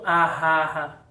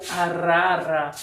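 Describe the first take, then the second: First: The middle R is a strong guttural sound. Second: The middle R is a light tapped sound. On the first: The speaker calls it wrong. "e não arrara" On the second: The speaker calls it right. "Então ela tem o som vibrante"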